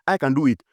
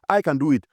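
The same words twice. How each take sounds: The two takes are said the same way.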